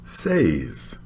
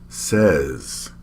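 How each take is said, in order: First: The vowel rhymes with the vowel in pays. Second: The vowel is short, like the vowel in bed. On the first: The speaker calls it wrong. "we don't say says" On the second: The speaker calls it right. "We say says"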